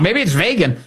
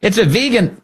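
First: Vegan said as VAY-gun, raised voice; mock the president's VAY-gun; Trump's vegan. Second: Vegan said as VEE-gun, raised voice; correct vegan. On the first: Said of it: "maybe I'm wrong". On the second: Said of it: "Last I checked". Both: Shown as a demonstration.

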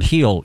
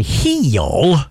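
First: Said in the usual way. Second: "Heal" stretched into two syllables, rising; faith healer's heal. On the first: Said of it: "made the word heal into two syllables". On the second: Retold or imitated. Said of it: "he made the word heal into two syllables".

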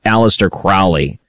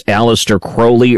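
First: Crowley said to rhyme with "foully"; OW pronunciation. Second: Crowley said as "CROW-lee"; long-O pronunciation. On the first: Host offering second option, OW in Crowley. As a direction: say Crowley with OW as in "cow". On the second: Host offering first option, long O in Crowley. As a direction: say Crowley with a long O, rhyming with holy. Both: Shown as a demonstration. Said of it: "how's the correct way to pronounce".

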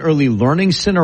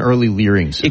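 First: Said in the usual way. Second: "learning" said as "leering"; punning mispronunciation. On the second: Shown as a demonstration. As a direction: say "learning" like "LEER-ing". Second take puns as leering.

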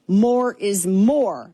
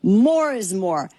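First: More is more drawn out slowly, each More leaned on; savoring the slogan; slow emphatic slogan. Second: More is more again, slow and weighty on More; declaring the slogan once more; repeated slow slogan. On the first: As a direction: proclaim More is more like a motto. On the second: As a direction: restate More is more as a creed. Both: Shown as a demonstration. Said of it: "I am a maximalist".

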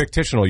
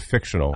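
First: "fictitional" as fik-TISH-uh-nul; added syllable. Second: Said in the usual way. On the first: Shown as a demonstration. Co-host pointing out the slip, "fictitional" with its added syllable. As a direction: put an extra syllable in, "fictitional". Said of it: "you add a syllable". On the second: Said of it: "instead of fictional".

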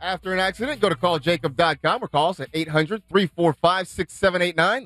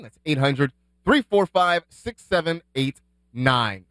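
First: Brisk sponsor phone-number read. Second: Number repeated slowly, each digit landed. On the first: Host reading the sponsor tag to listeners, ad-read voice. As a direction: sell the number like a radio spot. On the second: Host repeating the phone number for listeners, slow and deliberate. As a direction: spell it out slowly so they can write it down. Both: Acted. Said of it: "injury report is presented by".

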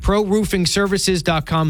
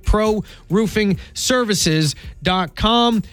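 First: Said in the usual way. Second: "Pro roofing services dot com" very slow, word by word; slowly spelled-out web address. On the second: Acted. Host repeats the sponsor's website for listeners, slow and spaced out.

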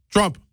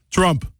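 First: "Trump" said again, a falling call; lightly voiced Netanyahu calling "Trump"; imitating Netanyahu. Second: A hint of Netanyahu's clipped "Trump"; lightly voiced Netanyahu calling "Trump"; imitating Netanyahu. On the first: Netanyahu repeats the name to Trump, mock voice. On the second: Netanyahu phoning Trump, lightly imitated. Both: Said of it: "'cause that's how he talks".

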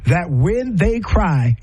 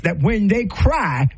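First: "that when they cry" slowed right down, each word weighted; slow emphatic. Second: Said in the usual way. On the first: Real, not acted. Speaker stating the lesson learned to listeners, slow and emphatic. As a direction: drive home the lesson slowly. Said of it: "That taught me the lesson". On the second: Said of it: "She says".

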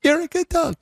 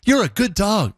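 First: Much higher squeaky sing-song praise; extra-high dog baby talk. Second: Higher sing-song praise for a dog; dog baby talk. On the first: Host pushing his voice higher for the dog, squeaky sing-song. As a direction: push the pitch way up, cooing at a dog. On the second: Host demoing baby talk to a dog, higher sing-song. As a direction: coo it like talking to your puppy. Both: Shown as a demonstration. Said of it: "I can't get high enough".

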